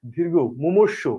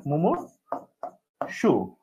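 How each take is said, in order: First: Slow, careful teacher reading; measured classroom dictation; slow spelling demo. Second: মুমূর্ষু stretched very slowly, every syllable held; মুমূর্ষু said softly and stretched out long, as a memory aid; drawn-out demo. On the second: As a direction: draw মুমূর্ষু out syllable by syllable so it sticks. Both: Shown as a demonstration. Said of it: "এটা হচ্ছে মনে রাখার technique".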